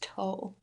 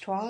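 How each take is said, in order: First: The vowel sounds like 'oh' with no w. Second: The vowel sounds like 'wah' after a w. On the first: "or do you think it's toll?" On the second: "do you think it's twal"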